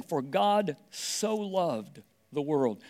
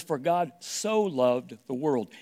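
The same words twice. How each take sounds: First: Very slow, each word weighed; slow solemn reading. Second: Slow with "so" leaned on; stress on so. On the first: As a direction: read the verse slowly and reverently. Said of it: "it just starts out by saying". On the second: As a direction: hold and weigh the word "so". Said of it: "This word "so" is a unique word". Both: Shown as a demonstration.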